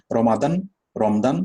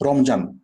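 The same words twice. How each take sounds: First: রমাদান, রমদান with "d" for the "j"; English speaker's mispronunciation. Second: রমজান said "Romjan", with a "j"; clear Bengali pronunciation. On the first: Retold or imitated. Teacher showing how Englishmen would say it, foreign mispronunciation. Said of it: "এভাবে উচ্চারণ করবে". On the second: Shown as a demonstration. Teacher showing what we can say clearly, Bengali pronunciation. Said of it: "আমরা স্পষ্টভাবে উচ্চারণ করতে পারি".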